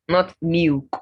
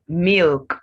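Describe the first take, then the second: First: The L sound is left out. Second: The L sound is clearly pronounced. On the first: The speaker calls it wrong. "not milk or meek" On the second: The speaker calls it right. "the uh is not silent"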